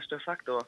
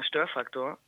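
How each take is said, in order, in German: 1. Die Betonung liegt auf der zweiten Silbe. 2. Die Betonung liegt auf der ersten Silbe. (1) "ich heiße eigentlich mit [name] ... dass eigentlich die Betonung auf dem Fuck liegt" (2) "dass mein Name immer falsch betont wird, weil die Leute sagen immer"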